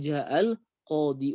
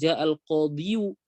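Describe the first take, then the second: First: The last word ends with a plain 'ee' sound. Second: The last word ends with an added 'yu' sound. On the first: The speaker calls it right. "bilang ja'al qadhi walaupun hakikatnya ja'al qadhiyu" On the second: The speaker calls it wrong. "Jadi kita nggak bisa bilang ja'al qadhiyu"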